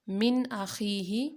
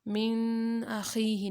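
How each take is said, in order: First: The n is pronounced clearly without nasal hum. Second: The n is hidden with a nasal hum. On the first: The speaker calls it right. "यहाँ पे हम नाक में आवाज़ को नहीं छुपाएंगे" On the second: The speaker calls it wrong. "नहीं"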